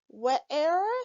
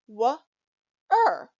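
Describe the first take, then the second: First: The vowel sounds like air, as in where. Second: The vowel sounds like er, as in her. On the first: The speaker calls it wrong. "that doesn't sound right" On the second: The speaker calls it right. "This word is actually pronounced w-er"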